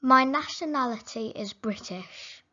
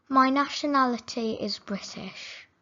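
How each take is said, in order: Both takes have the same delivery.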